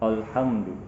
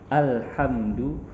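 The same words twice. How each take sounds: First: The opening sound is heavy and thickened. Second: The opening sound is light and thin. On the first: The speaker calls it wrong. "sering sekali kita menebalkan huruf hamzah" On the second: The speaker calls it right. "Seperti itu"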